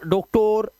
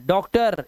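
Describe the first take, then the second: First: डॉक्टर with long o in both syllables; wrong pronunciation. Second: डॉक्टर ending in a schwa "-ter"; correct pronunciation. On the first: Teacher showing what to avoid, डॉक्टर with o. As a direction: say डॉक्टर as "doke-tore". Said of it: "ओ नहीं करना है". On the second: Teacher modelling for pupils, डॉक्टर with short "a". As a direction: say डॉक्टर as "dok-tur". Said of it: "ये पढ़ते हैं डॉक्टर". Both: Shown as a demonstration.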